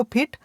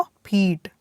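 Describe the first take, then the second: First: फिट with a short i; short vowel. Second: फीट with a long ee; long vowel. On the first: Teacher recapping the first word for students, short vowel. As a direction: keep the i in फिट brief. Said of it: "short sound है". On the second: Teacher recapping the next word for students, long vowel. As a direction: draw out the ee in फीट. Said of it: "इसका sound long है". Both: Shown as a demonstration.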